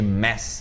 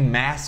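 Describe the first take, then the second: First: The vowel is closer, like 'e'. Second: The vowel is open, like 'a'. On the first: The speaker calls it right. "ao invés de mess" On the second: The speaker calls it wrong. "como se fosse mass de massa, um mass mais aberto"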